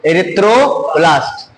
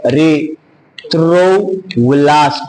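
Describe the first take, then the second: First: Drawn out erythroblast, syllable by syllable; teacher modelling "Erythroblast" very slowly; slow model word. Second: Extremely slow "erythroblast", every syllable stretched apart; teacher dragging out "erythroblast" as a demo; show the word. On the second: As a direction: spell out "erythroblast" by sound for students to copy. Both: Shown as a demonstration. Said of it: "ये देखो".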